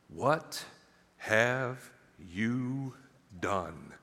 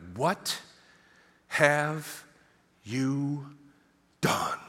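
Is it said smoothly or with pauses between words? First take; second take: smoothly; with pauses. First: It is said smoothly without pauses. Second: There is a pause between every word.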